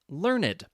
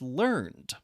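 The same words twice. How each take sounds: First: The word is said with two syllables. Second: The word is said with one syllable. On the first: It describes a person with much knowledge. "Sometimes you will pronounce the E in adjectives" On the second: It reports that someone acquired a skill. "the past tense of learn is"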